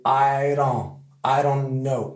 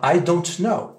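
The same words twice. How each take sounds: First: I don't know run together, the t dropped; American reduced. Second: I don't know with every sound said; careful full form. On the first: Teacher modelling the casual American form. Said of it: "avec l'accent américain". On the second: Teacher contrasting the careful I don't know. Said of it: "c'est pas". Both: Shown as a demonstration.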